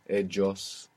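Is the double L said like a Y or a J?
J. The double L sounds like a J.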